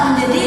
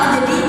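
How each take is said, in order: Both takes have the same delivery.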